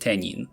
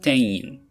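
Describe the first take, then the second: First: An n sound links the two vowels. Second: No n sound links the two vowels. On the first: The speaker calls it wrong. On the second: The speaker calls it right. "so this is"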